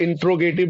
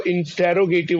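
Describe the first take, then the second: First: इंट्रोगेटिव said as "in-tro-gative", middle vowel dropped; इंट्रोगेटिव with "tr" run together, no "te" syllable; mispronunciation demo. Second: इंटेरोगेटिव said as "in-te-ro-gative", every syllable kept; इंटेरोगेटिव with a full middle vowel; correct pronunciation. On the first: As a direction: squeeze इंट्रोगेटिव to start like "intro". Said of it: "this is not right". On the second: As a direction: sound the "te" before "ro" in इंटेरोगेटिव. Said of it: "T E double R O होता है". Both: Shown as a demonstration.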